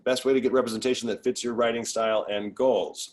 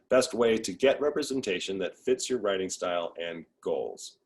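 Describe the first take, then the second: First: The question is read at a fast pace. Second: The question is read at a slow pace. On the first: The speaker calls it wrong. "I said that quickly" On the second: The speaker calls it right. "I'll slow down"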